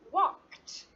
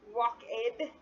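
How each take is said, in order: First: The word ends in a plain t sound. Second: The word ends in an extra id syllable. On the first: The speaker calls it right. "so you add a T, T sound" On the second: The speaker calls it wrong. "If we were to add an id sound"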